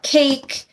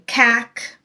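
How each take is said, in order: First: The vowel is long, saying its name. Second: The vowel is short, like in cat. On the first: The silent final E makes the vowel long. The speaker calls it right. "The vowel is long. It says its name" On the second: The reader ignored the silent final E. The speaker calls it wrong. "if your child is reading a word and they're saying cack"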